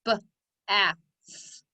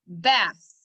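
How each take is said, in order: First: "B-a-th" sound by sound: b, short a, th; tapped-out sounds. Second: Said in the usual way. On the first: Shown as a demonstration. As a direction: tap out "B-a-th" with gaps between sounds. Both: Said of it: "Tap it out".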